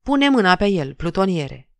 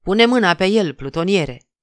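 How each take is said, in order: First: Raised, harsh command, falling at the end; roaring order. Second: A moderately raised, savage bark of an order; wild shout. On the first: Bearded officer shoots David and roars the order to the sergeant. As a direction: bellow the order while firing. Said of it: "răcnind". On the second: Bearded officer orders the sergeant to seize David, wild shout. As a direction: order the sergeant to seize him, rough and loud. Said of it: "un glas sălbatic". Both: A narrator's reading.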